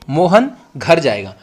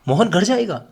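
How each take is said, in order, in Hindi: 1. यह सामान्य कथन वाले सुर में बोला गया है। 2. यह आश्चर्य वाले सुर में बोला गया है। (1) "मैंने इसको सिंपल बोला कि मोहन घर जाएगा, यानी पूर्ण विराम में बोला" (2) "आश्चर्यचकित होकर भी बोल सकता हूं"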